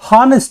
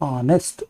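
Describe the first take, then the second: First: The word begins with an h sound. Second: The word begins directly with a vowel sound. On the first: The speaker calls it wrong. "ಇದು ಹಾನೆಸ್ಟ್ ಅಲ್ಲ" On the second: The speaker calls it right. "ಆ ಅಂತ ಬಂದಿರೋದ್ರಿಂದ ಆ್ಯನ್"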